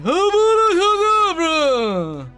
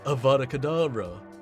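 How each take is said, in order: First: It is said in a Voldemort impression. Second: It is said in a plain voice.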